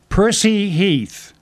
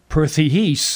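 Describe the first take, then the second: First: The s in Percy is a clear s. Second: The s in Percy is lisped like th. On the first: The speaker calls it right. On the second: The speaker calls it wrong.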